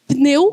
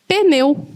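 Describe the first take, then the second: First: The p and n are said together. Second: A short vowel separates the p and n.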